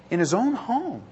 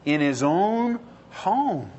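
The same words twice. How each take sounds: First: "own" lifted and pressed; stress on own. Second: Each word laid down slowly; slow emphatic. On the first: Preacher repeating the answer, stressing "own". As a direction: lean on "own" in "In his own home". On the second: Preacher answering his own question, slow and weighty. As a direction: spell it out, very slow. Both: Shown as a demonstration.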